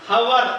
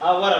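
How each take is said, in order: First: The word starts with an h sound. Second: The word starts directly with a vowel. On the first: The speaker calls it wrong. "హవర్ అనకూడదు" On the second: The speaker calls it right. "అవర్ అనాలి"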